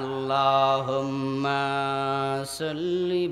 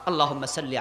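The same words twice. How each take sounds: First: The vowels are stretched out very long. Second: The vowels are kept short and plain. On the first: The speaker calls it wrong. "শুধু টানে আর টানে, টানতে টানতে প্লাস্টিকের মতো লম্বা বানাচ্ছে।" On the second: The speaker calls it right. "রাসূল শিখালেন।"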